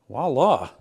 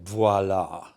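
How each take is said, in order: First: It is said in a plain English accent. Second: It is said in a French accent.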